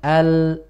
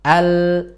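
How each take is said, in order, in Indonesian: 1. Bunyi l membawa kualitas w. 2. Bunyi l tetap murni tanpa w. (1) "nah, ada wawunya" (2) "Makanya ditahan"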